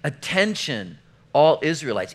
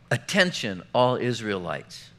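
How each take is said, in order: First: It is called out loudly, like a megaphone. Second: It is read in a normal voice.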